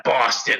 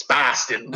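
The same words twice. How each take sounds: First: "Boston" said the wrong way, as others say it; imitated outsider pronunciation of "Boston"; mispronounced Boston. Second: "Boston" in his own local accent; corrected Boston. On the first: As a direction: mimic outsiders' take on "Boston". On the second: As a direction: correct them with a lower-pitched native "Boston". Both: Shown as a demonstration. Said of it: "it's not Boston".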